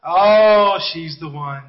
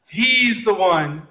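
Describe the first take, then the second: First: Mock lovestruck boy. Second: Lightly acted slow swoon; mock lovestruck girl. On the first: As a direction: imitate a smitten schoolboy, sinking into a low sigh. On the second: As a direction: imitate a smitten schoolgirl, drawing the words out. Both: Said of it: "But every one of them".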